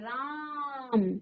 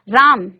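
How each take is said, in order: First: The first vowel is drawn out very long. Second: The first vowel has ordinary length.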